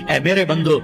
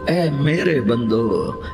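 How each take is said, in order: First: It is said in a plain, unaffectionate tone. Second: It is said in a warm, tender tone. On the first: The speaker calls it wrong. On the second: The speaker calls it right.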